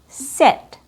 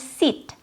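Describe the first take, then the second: First: The vowel is a relaxed, very short I. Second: The vowel is a tense, shortened long E. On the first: The speaker calls it right. "a more relaxed and a very short sound" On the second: The speaker calls it wrong. "using the long E sound like in seat and making it shorter... but that's not accurate"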